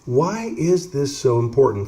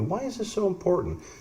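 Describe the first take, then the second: First: It is said in a normal voice. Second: It is said in a soft, curious voice.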